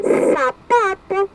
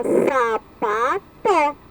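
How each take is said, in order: First: Said in the usual way. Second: "sapató" built up as sa, pa, tó with short breaks and an open final vowel; "sapató" as three detached syllables. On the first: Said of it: "dá pra formar a palavrinha". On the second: Shown as a demonstration. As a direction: sound out "sapató" slowly in three beats. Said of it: "Forma sapató".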